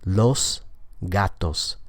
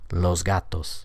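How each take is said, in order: First: The s before the g is voiceless. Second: The s before the g is voiced. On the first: The speaker is articulating especially carefully. The speaker calls it wrong. "without assimilation. So the S there is voiceless" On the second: This is how people speak in regular conversation. The speaker calls it right. "the S sound is going to change to a Z so that it's voiced"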